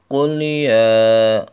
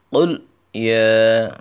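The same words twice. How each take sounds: First: The two words run together without separation. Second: The two words are clearly separated. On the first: The speaker calls it wrong. "Biasanya anak-anak itu qul ya, ini enggak boleh ya" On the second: The speaker calls it right. "qulnya harus dipisah ya, harus qul ya"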